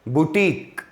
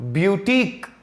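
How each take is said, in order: First: The first syllable is boo, without a y sound. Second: The first syllable is byoo, with a y sound. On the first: "बुटीक बोलेगा जिसमें य नहीं लगाएगा" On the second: "य लगा करके ब्यूटीक बोलेगा"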